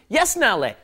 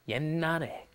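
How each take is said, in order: First: The first syllable ends with a clearly released consonant. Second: The first syllable's final consonant is swallowed into n. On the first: The speaker calls it wrong. "No, no, that's not how it's pronounced" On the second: The speaker calls it right. "you're just pronouncing an N"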